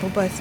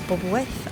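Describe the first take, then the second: First: The name is said in a reduced form. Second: The name is said fully, following its spelling. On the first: This is how the speaker has always said it. "I've always called it" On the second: This follows the written form of the name. "as it's spelt"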